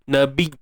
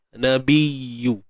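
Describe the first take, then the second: First: The y sound is pressed hard and choked off. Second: The y sound is light and flows on smoothly. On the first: The speaker calls it wrong. "Bila kita tekan, suara akan berubah menjadi suara yang tertahan" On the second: The speaker calls it right. "sifat rakhawah, iaitu suara yang mengalir"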